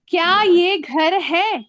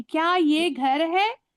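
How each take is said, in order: First: Slow, loud question with क्या ये घर है? stressed on ये; slow, emphatic question; question demo. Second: Slow question rising on है; question demo. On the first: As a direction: ask क्या ये घर है? slowly and loudly as a question. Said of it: "क्या लगा दी मैंने". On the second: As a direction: let है lift at the end. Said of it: "तो question mark आ गया". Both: Shown as a demonstration.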